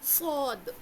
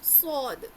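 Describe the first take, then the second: Both takes have the same delivery.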